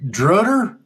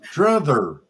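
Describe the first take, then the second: First: The middle consonant is a plain t sound. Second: The middle consonant is a th sound. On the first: The speaker calls it wrong. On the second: The speaker calls it right.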